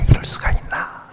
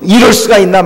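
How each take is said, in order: First: It is said in a quiet whisper. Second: It is said loudly in a full voice. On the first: The complaint is muttered secretly. "속삭이고 소곤소곤소곤 하는 거" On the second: The complaint is made openly. "막 큰 소리로"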